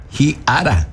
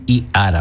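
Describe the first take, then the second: First: "ji ara" opening on an audible, aspirated H; sounded H. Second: "i ara" starting straight on the bare vowel; no initial H. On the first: Teacher correcting the form for students, initial H sounded. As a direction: breathe a clear H into "ji" before "ara". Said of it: "la H no es muda". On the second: Teacher showing students what not to say, bare initial vowel. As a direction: say "i ara" with no aspirated H before i. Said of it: "no va a decir i ara". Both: Shown as a demonstration.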